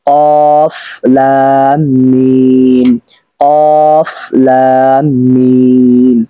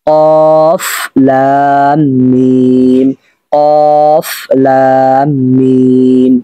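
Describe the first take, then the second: Both takes have the same delivery.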